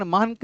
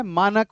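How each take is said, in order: First: मानक said as "maank", run into one syllable; wrong pronunciation. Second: मानक said as "maa-nak", in two syllables; correct pronunciation. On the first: Teacher correcting a student's answer, wrong "maank" for मानक. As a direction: drop the middle vowel of मानक, saying "maank". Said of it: "नहीं होता है". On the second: Teacher correcting a student's answer, clear "maa-nak" for मानक. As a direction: sound the short vowel before the final k in मानक. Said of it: "मानक होता है". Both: Shown as a demonstration.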